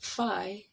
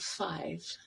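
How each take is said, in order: First: The final consonant sound is left off. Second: The final consonant sound is clearly pronounced. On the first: The speaker calls it wrong. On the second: The speaker calls it right.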